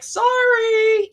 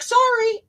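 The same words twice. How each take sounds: First: High-pitched, loud apologetic sorry; mock-timid teen apologizing on court; reflexive sorry. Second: High, loud squeaky apologetic sorry; reflexive sorry. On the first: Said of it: "I'd be like". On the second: Retold or imitated. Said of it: "be like".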